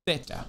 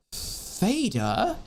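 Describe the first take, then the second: First: "theta" as a short, soft TEH-ta; dad's accented theta. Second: "theta" as THAY-tuh, high and questioning; standard pronunciation of theta. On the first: Retold or imitated. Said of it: "how my dad pronounced it". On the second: Shown as a demonstration. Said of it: "was pronounced".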